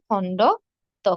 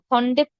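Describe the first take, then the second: First: The parts are said apart as 'khondo to'. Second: The parts run together as 'khondetto'. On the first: The speaker calls it right. "এটি হবে খণ্ড ত" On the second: The speaker calls it wrong. "খণ্ডেত্ব হবে না"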